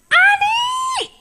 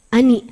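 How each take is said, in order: First: The name is called with lively, projected intonation. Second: The name is called flatly, without lively intonation.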